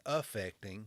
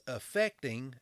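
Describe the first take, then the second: First: "affecting" with a stressed opening A; affecting, A vowel. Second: "affecting" said as effecting; effecting, E vowel. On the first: Speaker setting it against effect, "affecting" with a distinct A. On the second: Speaker telling what the job asks, "affecting" pronounced effecting. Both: Shown as a demonstration. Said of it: "both effect and affect".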